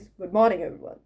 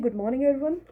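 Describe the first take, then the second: First: Lower, measured stage greeting; confident presenter voice. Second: Said in the usual way. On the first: Shown as a demonstration. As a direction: open like you own the room. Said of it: "it should be like this". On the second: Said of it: "Normally when I say".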